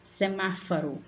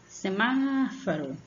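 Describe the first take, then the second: First: Said in the usual way. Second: Semáforo slow, with MÁ held long; chamando alguém. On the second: Shown as a demonstration. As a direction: stretch the MÁ of Semáforo as a call. (Semáforo chamado, com MÁ alongado) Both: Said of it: "Como se você estivesse chamando alguém".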